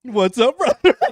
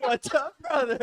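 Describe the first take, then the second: First: Loud, high hyped-up greeting; imitating greeting. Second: High, louder laughing greeting; imitating greeting. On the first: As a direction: shout it like meeting a bro. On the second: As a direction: echo the bro greeting, laughing.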